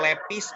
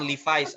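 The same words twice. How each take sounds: First: It is said in a Sundanese accent. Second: It is said in a plain, standard accent. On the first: "kalau orang Sunda bilang" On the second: "banyak disebut dengan Levi's"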